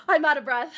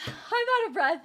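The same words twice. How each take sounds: First: Breathless after screaming; panting between words; out of breath. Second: Breathless giggle; out of breath, laughing. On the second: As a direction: pant and laugh through it. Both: Real, not acted.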